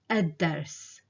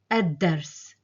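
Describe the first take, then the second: First: The l is dropped and the d doubled. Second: The same.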